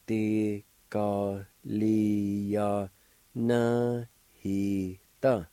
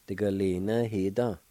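First: "De ga li ya na he da" slowly drawn out; syllable by syllable. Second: Said in the usual way. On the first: Shown as a demonstration. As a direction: sound out each syllable of "De ga li ya na he da" slowly. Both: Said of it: "I'll pronounce these words".

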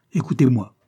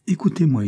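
First: Insistent repeat, louder but less high; repeated impatiently. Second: Sharp, higher and louder with impatience; impatient. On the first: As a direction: say it again, firm and loud. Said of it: "répéta-t-il en se levant brusquement". (répété avec insistance, plus fort) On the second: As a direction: cut her off, impatient. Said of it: "dit-il avec impatience". (impatient, plus aigu et plus fort) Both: A narrator's reading.

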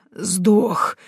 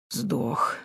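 First: Lightly gurgled dead voice; gurgling alien voice. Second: Quiet gurgle from a dead throat; gurgling corpse voice; gurgling alien voice. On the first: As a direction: gurgle it from the throat. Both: A narrator's reading. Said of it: "забулькало в горле мертвеца".

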